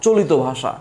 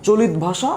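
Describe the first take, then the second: First: "চলিত" as cho-li-to before ভাষা; open ending. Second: "চলিত" as cho-lit before ভাষা; closed ending. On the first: Teacher contrasting two common readings, open ending. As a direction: say "চলিত" with o after the t. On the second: Teacher contrasting two common readings, closed ending. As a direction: say "চলিত" stopping on t. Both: Shown as a demonstration. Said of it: "আবার কেউ কেউ বলে".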